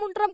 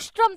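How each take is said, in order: First: The middle cluster is pronounced 'nt'. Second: The middle cluster is pronounced 'sht'. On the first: The speaker calls it wrong. "उष्ट्रम शब्द बोलना नहीं आया" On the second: The speaker calls it right. "ऊंट का उच्चारण उष्ट्रम था"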